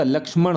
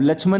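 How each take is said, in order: First: लक्ष्मण as "laksh-man", retroflex final n; correct form demo. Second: लक्ष्मण said as "lachh-man"; wrong form demo. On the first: Teacher correcting children, लक्ष्मण as laksh-man. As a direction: sound the full ksh in लक्ष्मण. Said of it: "ये शुद्ध है". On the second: Teacher showing the error, लक्ष्मण as lachh-man. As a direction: put chh in place of ksh in लक्ष्मण. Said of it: "लक्ष्मण नहीं होता". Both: Shown as a demonstration.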